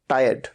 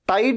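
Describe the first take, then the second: First: The vowel is drawn out over two syllables. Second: The word is said as one short syllable. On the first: The speaker calls it right. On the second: The speaker calls it wrong. "टाइड नहीं"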